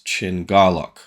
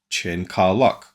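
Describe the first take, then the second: First: The middle syllable begins with a G sound. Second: The middle syllable begins with a K sound. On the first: This is how the name is actually pronounced. The speaker calls it right. "the Ka becomes Ga" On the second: This is how the name looks when read. The speaker calls it wrong. "as read"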